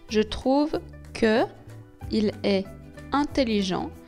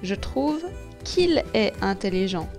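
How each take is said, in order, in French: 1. La voyelle de que se prononce devant il. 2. La voyelle de que disparaît devant il. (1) "Quand il y a une voyelle après le E de que, alors je supprime ce E" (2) "je supprime ce E. Pour prononcer plus facilement"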